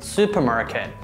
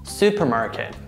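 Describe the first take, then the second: First: It is said with American pronunciation. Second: The same.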